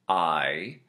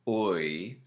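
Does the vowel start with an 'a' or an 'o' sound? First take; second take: a; o. First: The vowel glides from 'a' to 'ee'. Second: The vowel glides from 'o' to 'ee'. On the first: "in general American, it's a-e" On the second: "The typical Irish would be o-e"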